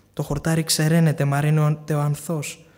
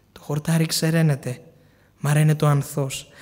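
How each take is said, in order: The two takes are said the same way.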